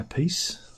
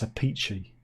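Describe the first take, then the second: First: The name ends with an 's' sound. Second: The name ends with a 'chee' sound. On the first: The speaker calls it wrong. "People say it's not, it's not pronounced like that" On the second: The speaker calls it right. "It's a peachy"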